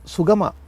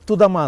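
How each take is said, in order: First: It starts with s and has g inside. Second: It starts with t and has d inside. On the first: An adult is saying it. The speaker calls it right. "ಅದು ಸುಗಮ" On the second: A small child is saying it. The speaker calls it wrong. "ಕಾ ಅನ್ನೋದಕ್ಕೆ ತಾ ಅಂತ ಇದ್ಲು, ಗಾ ಅನ್ನೋದಕ್ಕೆ ದಾ ಅಂತ ಇದ್ಲು"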